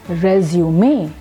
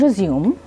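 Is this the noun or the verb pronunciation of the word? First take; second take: noun; verb. First: It is said with the noun pronunciation. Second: It is said with the verb pronunciation. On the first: It names a document about oneself. "in the form of a noun, then the word is pronounced as resume" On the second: It means to restart. "in the form of a verb, then the word is pronounced as resume"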